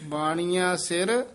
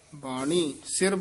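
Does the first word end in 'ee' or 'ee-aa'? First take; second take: ee-aa; ee. First: The first word ends in an extra 'aa' sound. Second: The first word ends in a plain 'ee' sound. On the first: The speaker calls it right. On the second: The speaker calls it wrong.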